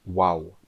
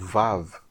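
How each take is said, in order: First: The name begins with a w sound. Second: The name begins with a v sound. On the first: This is closer to the ancient Aramaic pronunciation. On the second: This is the modern Hebrew pronunciation.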